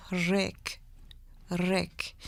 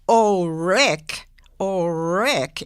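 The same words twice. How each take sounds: First: Rick said slow and soft, R rolled. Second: Said in the usual way. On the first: Shown as a demonstration. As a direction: roll the R in Rick, slow and hushed. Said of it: "that little ra". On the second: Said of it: "So it wasn't".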